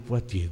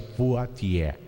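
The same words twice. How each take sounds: First: The name is said with French sounds. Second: The name is sounded out letter by letter. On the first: The speaker calls it right. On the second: The speaker calls it wrong.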